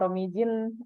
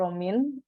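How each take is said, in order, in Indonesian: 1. J dibaca di tengah. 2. J tidak dibaca di tengah. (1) "Kalau bacanya Romijin, berarti orang Indonesia sekali Anda" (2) "J-nya nggak dibaca"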